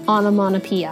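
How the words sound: The middle t is soft and flapped. "アメリカ英語はt を立たせないのでマノピアになる"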